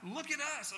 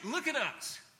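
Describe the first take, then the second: First: It is said in a dismissive, exasperated tone. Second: It is said in an eager, encouraging tone. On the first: We have nothing to give you. "do you think we can give you anything? We don't have anything" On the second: We have something far better to give you. "hey, look at us. Man, you're asking for alms"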